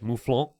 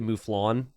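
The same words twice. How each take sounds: First: It is said with a French-sounding pronunciation. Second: It is said with a plain English pronunciation. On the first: "I think I'm a little extra when I say it. It seemed very French" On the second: "I could just say mouflon"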